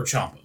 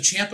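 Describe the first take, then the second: First: Ciampa said with an open "ah", as CHOMP-uh; second pronunciation CHOMP-uh. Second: Ciampa said with a flat "a", as CHAMP-uh; first pronunciation CHAMP-uh. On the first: Co-host offering the other option, Ciampa as CHOMP-uh. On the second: Co-host asking how the name is said, Ciampa as CHAMP-uh. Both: Shown as a demonstration. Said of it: "Is it Ciampa or Ciampa".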